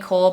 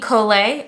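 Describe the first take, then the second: First: The name ends without a sounded final vowel. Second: The name ends with a sounded final vowel. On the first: "or Amy Cole" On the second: "I do believe that's how you say it"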